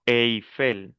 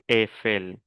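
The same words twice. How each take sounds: First: "Eiffel" said "ei-fel", gliding from E to I; Spanish pronunciation. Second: "Eiffel" said "èfel", one open E; no I sound in "Eiffel", French style; French pronunciation. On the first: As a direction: sound both vowels in "Eiffel", Spanish style. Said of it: "En español decimos". ("Eiffel" a la española, con E-I) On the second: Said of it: "en francés". ("Eiffel" a la francesa, con E abierta) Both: Shown as a demonstration.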